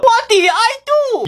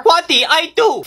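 First: High, panicked plea; panicked protest. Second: Said in the usual way. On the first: Acted. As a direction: plead in a panic. Repeated protest, now panicked.

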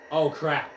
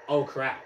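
The two takes are said the same way.

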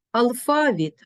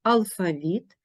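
First: Алфавіт as алФАвіт, high on ФА; stress on second syllable. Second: Алфавіт as алфаВІТ; stress on last syllable. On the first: Teacher showing double stress, алфавіт stressed on ФА. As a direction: hit ФА in алфавіт. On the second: Teacher showing double stress, алфавіт stressed on ВІТ. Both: Shown as a demonstration. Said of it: "мають подвійний наголос".

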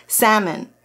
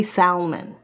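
First: Salmon with a silent L; correct salmon. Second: Salmon with the L sounded out; wrong salmon. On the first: Just remembered the English word, salmon said SAM-un. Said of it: "That's what it's called". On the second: Showing how we don't say it, salmon with an L. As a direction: say salmon as SOW-mun or SAL-mun, L audible. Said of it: "we don't say salmon". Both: Shown as a demonstration.

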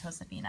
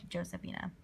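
First: "Josefina" with the J said as H; correct pronunciation. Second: "Josephina" with an English J sound; wrong pronunciation. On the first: Collector correcting her slip, "Josefina" said with an H sound. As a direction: open "Josefina" on a Spanish H sound. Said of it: "I know it's pronounced Josefina". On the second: Collector quoting her own slip, "Josephina" with an English J. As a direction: open "Josephina" on a J as in Josie. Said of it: "I don't know why I said Josephina". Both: Shown as a demonstration.

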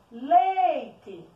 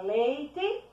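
First: LEITE called loud, LEI drawn out; calling out. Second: Said in the usual way. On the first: Shown as a demonstration. Teacher calls the word like a little friend, calling out LEITE. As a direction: call out LEEEIte, stretching the first syllable. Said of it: "como se estivesse chamando".

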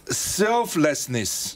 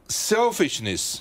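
First: Selflessness said very slowly, syllable by syllable; teacher-slow selflessness; spelling it out slowly. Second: Selfishness said slowly and clearly, set against selflessness; careful teacher reading of selfishness; slow contrast word. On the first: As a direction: drag out selflessness so each part is clear. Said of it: "你看他把". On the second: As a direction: stretch out selfishness to show the mix-up. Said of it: "讲成selfishness". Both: Shown as a demonstration.

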